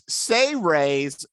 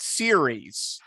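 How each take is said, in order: First: The word is said as say-rays. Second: The word is said as seer-eez. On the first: The speaker calls it right. "And this is Say Rays" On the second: The speaker calls it wrong. "not series"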